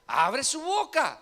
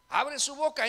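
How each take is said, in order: First: Slow, weighted, each word leaned on; slow, deliberate teaching emphasis; slow emphatic answer. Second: Said in the usual way. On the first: Shown as a demonstration. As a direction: spell the answer out slowly. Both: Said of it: "¿Qué hace?".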